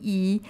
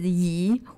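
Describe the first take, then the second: First: It is said with the first tone. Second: It is said with the second tone. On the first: It means one. "number one" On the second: It means move. "your second term is yi"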